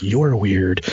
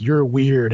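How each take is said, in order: First: Much lower voice, mimicking the locals; suspicious congregation. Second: Said in the usual way. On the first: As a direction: drop low for a wary sideways judgment. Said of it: "and they're like". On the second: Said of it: "giving each other the sideways look".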